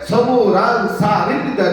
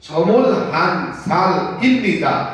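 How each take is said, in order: First: The h sound is dropped and the l links on. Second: The h sound is clearly pronounced before 'an'. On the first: "দ্রুত বললে" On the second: "যদি থেমে যান তাহলে বলবেন সমুল হানসার"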